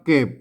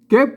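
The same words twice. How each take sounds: First: The word is said with a low tone. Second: The word is said with a rising tone. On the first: "มันจะออกเสียงเอกนะครับมาอ่านว่าเก็บ" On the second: "ให้มันเป็นเสียงจัตวานะครับเก็บ"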